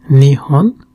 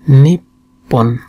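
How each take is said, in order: First: The middle consonant is a soft h sound. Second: The middle consonant is a doubled p sound. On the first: "Both are Japanese" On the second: "sometimes called Nippon"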